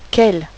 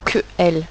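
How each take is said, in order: First: The two words are linked into one syllable. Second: The two words are said separately, not linked. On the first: The speaker calls it right. "Je veux entendre qu'elle" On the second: The speaker calls it wrong. "Je ne veux plus entendre que elle"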